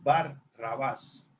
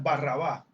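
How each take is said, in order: First: The name is split into two separate parts. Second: The name is run together as one word. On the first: The speaker calls it right. "es Bar Rabás" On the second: The speaker calls it wrong. "como corrido"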